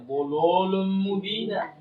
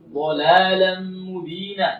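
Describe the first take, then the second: First: The L is pronounced heavy and thick. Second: The L is pronounced light and thin. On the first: The speaker calls it wrong. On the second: The speaker calls it right.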